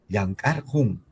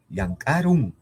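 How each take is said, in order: First: The suffix is said with an h-like sound. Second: The suffix is said with an r sound. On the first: This follows the written form. "si escribo con, con el Ju" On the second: This follows everyday spoken usage. "Claro que puedes leerlo con Ru"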